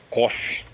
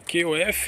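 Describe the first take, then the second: First: The letters are spoken with Portuguese letter names. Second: The letters are spoken with English letter names. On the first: This is how Brazilians commonly say the acronym. The speaker calls it wrong. "o brasileiro em si, ele fala C O F" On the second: This is the original way to say the acronym. The speaker calls it right. "é a sigla e a pronúncia original"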